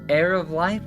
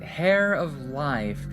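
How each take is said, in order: First: The first word begins without an H sound. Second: The first word begins with an H sound. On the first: The speaker calls it right. "just don't pronounce the H. It's just air, not hair" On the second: The speaker calls it wrong. "I always end up pronouncing the H"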